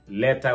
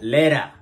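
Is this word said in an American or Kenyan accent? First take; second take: Kenyan; American. First: It is said in a Kenyan English accent. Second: It is said in an American English accent. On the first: "Kama ni kusema letter" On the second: "wanasema letter"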